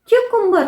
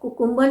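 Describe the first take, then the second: First: The first syllable has a 'kyoo' glide sound. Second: The first syllable is a plain 'koo' sound. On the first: The speaker calls it right. "या का sound आता है" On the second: The speaker calls it wrong. "वो कुकुम्बर नहीं"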